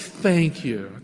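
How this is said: It is said slowly with deep, heartfelt feeling.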